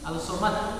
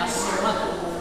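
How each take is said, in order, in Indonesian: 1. Artikelnya dibaca dengan bunyi l yang jelas. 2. Bunyi l menyatu menjadi bunyi s ganda. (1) "Jadi tidak dibaca Al-Somad" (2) "tapi bacanya As-Somad"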